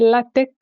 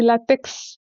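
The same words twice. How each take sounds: First: The word ends with a k sound. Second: The word ends with a ks sound. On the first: The speaker calls it right. "en réalité c'est latex avec un K" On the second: The speaker calls it wrong. "c'est une erreur qui est commise par euh, plusieurs gens quand on dit latex"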